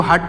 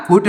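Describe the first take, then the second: First: 'हट' with a short uh vowel; correct vowel demo. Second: 'हुट' with a short oo vowel; wrong vowel demo. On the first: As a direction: say 'हट' with u as in cup. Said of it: "इसको हट पढ़ेंगे". ('हट' बिना मात्रा, छोटे अ के साथ) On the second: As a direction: say 'हुट' with u as in put. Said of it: "हुट नहीं पढ़ेंगे". ('हुट' में छोटे उ की मात्रा का उच्चारण) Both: Shown as a demonstration.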